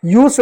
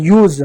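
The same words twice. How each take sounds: First: यूज without the buzzing Z at the end; wrong ending. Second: यूज ending in a buzzing Z, "yooz". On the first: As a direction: close यूज on the wrong consonant, no Z buzz. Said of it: "यूज नहीं यूज". (यूज के अंत में ज़ की गूंज नहीं) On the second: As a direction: stretch यूज slowly onto a voiced Z. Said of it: "ज हो गया". (यूज के अंत में Z वाला ज़) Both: Shown as a demonstration.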